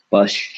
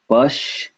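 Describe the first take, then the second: First: Said in the usual way. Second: Pash said high with a rise; high demo. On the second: Shown as a demonstration. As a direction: lift Pash up. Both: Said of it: "the A has to go with ja".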